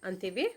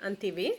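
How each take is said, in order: Both takes have the same delivery.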